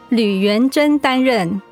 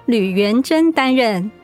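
The two takes are said the same way.

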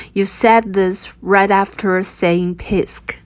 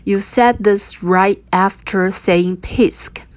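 First: Said in the usual way. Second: Slow and deliberate; slow teaching read. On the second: Shown as a demonstration. Teacher modelling the line slowly for learners. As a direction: lay out each word slowly. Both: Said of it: "你扑完就说我可爱".

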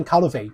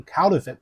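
First: "counterfeit" ending in "fay"; mispronounced "counterfeit", long "ay" and no final t; wrong ending. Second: "counterfeit" ending in short "fit"; demonstrated "counterfeit" with a short i in the last syllable; correct ending. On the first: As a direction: say "counterfeit" as COUN-ter-fay. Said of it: "它不念counterfeit". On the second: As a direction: say "counterfeit" as COUN-ter-fit. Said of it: "它念counterfeit". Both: Shown as a demonstration.

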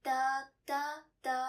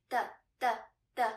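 First: "the, the, the", each vowel held too long; drawn-out wrong tone. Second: "the, the, the", each very short, with a gap after; short fifth tone. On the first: Teacher showing what to avoid, sounds lasting too long. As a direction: let each "the" linger instead of cutting it short. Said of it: "instead of". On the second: Teacher showing how we should pronounce it, short and separated. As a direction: cut each "the" off quickly, like counting beats. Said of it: "not to make the sound last too long". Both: Shown as a demonstration.

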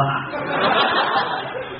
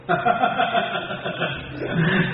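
First: Airless chuckle lifting at the end; a mocking laugh that rises; short chuckle. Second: Airless chuckle trailing down; soft chuckle. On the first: Brothers tease his swollen face, rising chuckle. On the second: Acted. Brothers laugh at the swollen-faced man, soft falling chuckle. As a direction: let a quiet laugh fall away. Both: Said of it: "哥俩下来乐".

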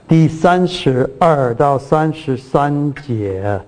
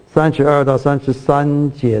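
First: 第三十二到三十三节 said slowly and spelled out; slow, deliberate citation. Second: Said in the usual way. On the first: Shown as a demonstration. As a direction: read the verse number slowly for clarity. (慢慢念出章节)

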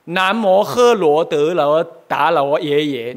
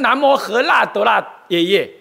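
First: 罗 read as modern Mandarin luo, slowly; wrong Mandarin reading. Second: 辣 said la as the Tang sound of 罗; correct Tang reading. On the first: Teacher shows students the wrong Mandarin reading of 罗. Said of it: "你怎么读成这个样？". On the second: Teacher shows students the correct Tang-era reading with la. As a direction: read 南无喝辣德辣耶耶 with la, the old way. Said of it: "是这样读的". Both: Shown as a demonstration.

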